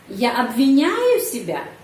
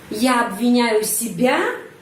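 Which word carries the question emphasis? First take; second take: обвиняю; себя. First: The question emphasis falls on the middle word. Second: The question emphasis falls on the last word. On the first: It asks whether blaming happens or not. "intonasi bisa di sini pada kata menyalahkan, обвиняю" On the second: It asks whether it is oneself that is blamed. "diri sendiri di sini penekanan intonasi"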